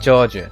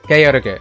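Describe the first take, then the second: First: The name ends with a soft j sound. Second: The name ends with a hard g sound. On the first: This is the later version of the name. The speaker calls it wrong. "they decided to pronounce it George for Suikoden five" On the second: This is the character's original name. The speaker calls it right. "his name was not George in Suikoden two. It was Georg"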